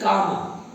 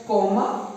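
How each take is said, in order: First: Comma said with an open "ah", "KAH-ma"; correct comma pronunciation. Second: Comma said with a long "oh", like "coma"; mispronounced comma. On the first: Teacher correcting students' pronunciation, comma said as "kah-ma". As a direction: say comma as "KAH-ma", not "KOH-ma". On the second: Teacher showing students the wrong pronunciation, comma said as "koh-ma". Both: Shown as a demonstration. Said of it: "It is not pronounced as comma".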